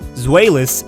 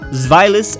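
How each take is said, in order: First: The name does not echo German 'zwei'. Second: The name echoes German 'zwei'. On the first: The speaker calls it wrong. "a common misconception that these Pokemon are pronounced" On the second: The speaker calls it right. "their pronunciation is actually ... mimicking ... zwei"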